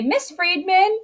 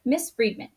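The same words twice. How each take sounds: First: "Miss Friedman" high, rising at the end; questioning call for attention. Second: Said in the usual way. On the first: Shown as a demonstration. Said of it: "trying to get my attention". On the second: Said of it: "that would be the beginning of your sentence".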